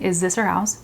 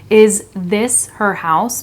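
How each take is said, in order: First: The th in 'this' sounds like a z. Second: The tongue goes between the teeth for a th. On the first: The speaker calls it right. "So I'm just saying" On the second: The speaker calls it wrong. "I'm not saying, is this her house? Because that is awkward and it feels weird"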